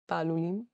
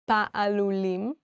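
First: The word is said quickly. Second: The word is said at a normal pace.

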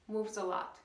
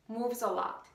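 No difference in how they are said.

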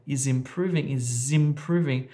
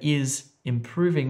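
First: The two words are run together like one word. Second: The two words are said separately with a break between them. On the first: The speaker calls it right. "we say is improving. It's almost as if this is one word" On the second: The speaker calls it wrong. "We don't say is improving"

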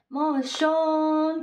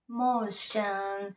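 First: The second vowel is a clear rounded o. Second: The second vowel is a weak, unclear schwa. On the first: The speaker calls it wrong. "こういう口にしてしまわないで" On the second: The speaker calls it right. "結構シャーン"

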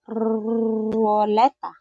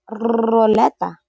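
First: The word is said at a slower pace. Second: The word is said at a fast pace.

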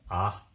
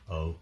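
First: The vowel is said as a short sound. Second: The vowel is said like its letter name. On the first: "Short vowels" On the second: "Long vowels are just the names of the vowels"

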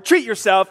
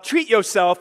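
First: The phrase is said in its full, standard form. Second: The phrase is said in a casual, ungrammatical form.

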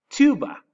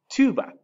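First: It is said with English pronunciation. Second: It is said with English pronunciation.

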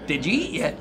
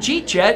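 First: Each of the four words is said separately. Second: The words are squeezed together into two syllables. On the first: It is the standard full form. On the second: It is the local casual way of saying it.

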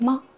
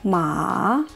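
First: The syllable is short and light, without contour. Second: The pitch rises from middle to high. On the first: "пятый тон или нулевой тон, это очень легко" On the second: "А второй тон"

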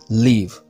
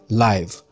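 First: It is said with the verb pronunciation. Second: It is said with the adjective pronunciation. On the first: It means to reside somewhere. "Live as a verb is pronounced live" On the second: It describes something living or happening now. "Live as an adjective is pronounced live"

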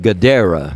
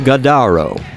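First: The middle vowel sounds like 'eh'. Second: The middle vowel sounds like 'ah'. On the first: The speaker calls it right. "I think that's J.J. Godera" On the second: The speaker calls it wrong. "I pronounced that wrong"

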